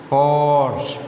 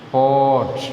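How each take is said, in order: First: The r sound is clearly pronounced. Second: The r sound is left silent. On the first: This is how Malayalam speakers usually say it. The speaker calls it wrong. "പോർട്ട് എന്നാണ് നമ്മൾ മലയാളികൾ പറയാറുള്ളത്" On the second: This is the correct English pronunciation. The speaker calls it right. "ആറിൻ്റെ sound silent ആണ്"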